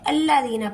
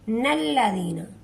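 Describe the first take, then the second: First: The word starts directly with a vowel. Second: The word starts with a linked n sound. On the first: The reading stops at the verse end first. "अगर हम वक्फ कर देंगे तो हम इसे अल्लाजीना पढ़ेंगे" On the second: The reading continues without stopping at the verse end. "Otherwise हम इसे नल्लाजीना पढ़ेंगे"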